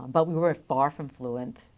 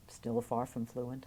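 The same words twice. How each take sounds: First: Said in the usual way. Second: Softer, slower afterthought; quiet aside. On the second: Real, not acted. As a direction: drop it as a rueful aside.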